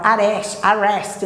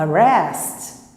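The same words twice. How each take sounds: First: "arrest" com A inicial aberto e cheio; erro de aluno. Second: "arrest" com A inicial fraco, quase "â"; schwa inicial fraco. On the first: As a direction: diga "arrest" como "á-rést", sem reduzir. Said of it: "não, a, arrest". ("arrest" com um "á" forte no começo) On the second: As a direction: reduza o A e apoie em "rest". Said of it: "não, a". ("arrest" mais grave, com primeira vogal átona) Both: Shown as a demonstration.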